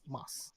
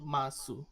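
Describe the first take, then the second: First: The final u vowel is dropped entirely. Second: The final u vowel is clearly pronounced. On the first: The speaker calls it right. "it's mas, M A S. The U is silent" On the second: The speaker calls it wrong. "it's not masu"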